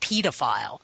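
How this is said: It is said the British way.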